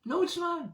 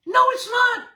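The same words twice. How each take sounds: First: "No, it's not" again, much softer but still high; soft repeat. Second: "No" shouted much higher and louder; shouted denial. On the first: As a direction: drop it to a knowing hush. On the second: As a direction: blast the denial out. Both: Real, not acted. Rebuts the critics, then repeats.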